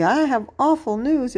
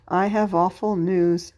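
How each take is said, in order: First: Higher-pitched, said with conviction; passionate exclamation. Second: Said in the usual way. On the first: Shown as a demonstration. Teacher showing pupils an exclamation point, said passionately. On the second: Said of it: "No, it's a statement".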